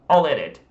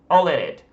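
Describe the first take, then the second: Both takes have the same delivery.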